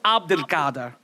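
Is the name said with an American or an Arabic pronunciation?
Arabic. The name is said with an Arabic pronunciation. The speaker calls it right. "if I were to try the Arabic version"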